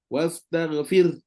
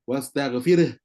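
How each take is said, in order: First: The final r is thin and ends without a vowel. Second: The final r bounces into an extra vowel. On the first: The speaker calls it right. "Roh tetap mati. Dan nipis" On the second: The speaker calls it wrong. "bila roh tu jadi qalqalah"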